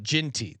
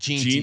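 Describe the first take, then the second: First: The first syllable sounds like the word gin. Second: The first syllable does not sound like gin. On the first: This is the form some listeners asked for. "They want me to call it Ginty" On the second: This is the form the hosts had been using. "They didn't like Jeanty"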